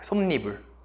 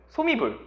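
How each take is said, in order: First: An n sound is inserted after the m. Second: The m links straight into the vowel, without n. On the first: The speaker calls it right. "소미불이 아니라 솜니불이라고 해야 맞습니다" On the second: The speaker calls it wrong. "이거 소미불 이렇게 읽는 친구들 꽤 많을걸요?"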